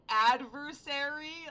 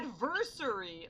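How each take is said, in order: First: It is said with an American pronunciation. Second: It is said with a British pronunciation. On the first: "that's how we've always pronounced it in the U S" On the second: "she said adversary. ... I get it's it's British"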